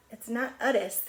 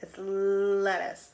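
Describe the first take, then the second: First: "lettuce" said as "uttuce", the l dropped; mock wrong "lettuce" without its l; wrong sound. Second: "lettuce" slow with a clear l; slow model "lettuce" with a firm l; correct sound. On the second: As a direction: draw out "lettuce" carefully, l first. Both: Shown as a demonstration. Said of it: "'Cause it's not".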